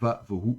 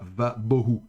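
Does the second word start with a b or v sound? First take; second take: v sound; b sound. First: The second word begins with a soft v sound. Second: The second word begins with a hard b sound. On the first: The speaker calls it right. "devient fricatif, et donc on prononcera va vohu" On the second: The speaker calls it wrong. "et non pas va bohu"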